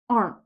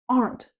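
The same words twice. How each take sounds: First: The final T sound is swallowed and dropped. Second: The final T sound is clearly pronounced. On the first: This is how it sounds in natural speech. "we often swallow that T sound" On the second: The speaker wants to be really clear. "you can stress the T"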